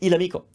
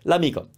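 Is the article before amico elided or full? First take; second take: full; elided. First: The article is a full separate syllable. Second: The article is elided into the vowel. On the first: The speaker calls it wrong. "We're not going to say il amico. Sounds weird" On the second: The speaker calls it right. "So l'amico, that's how we say the friend"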